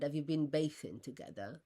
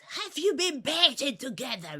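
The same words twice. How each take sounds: First: Said in the usual way. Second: High, loud imitation of a woman shouting; retold shout. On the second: Woman shouts her question at the speaker after getting no answer, shouting. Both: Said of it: "And she shouts".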